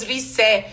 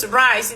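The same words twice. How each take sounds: First: Rice said as the wrong model; wrong take said as rice. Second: Rise, ending on a buzzing z; rise said right. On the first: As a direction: rise pronounced like rice. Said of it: "Não falamos". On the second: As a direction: rise with a long ai and voiced z. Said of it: "falamos rise". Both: Shown as a demonstration.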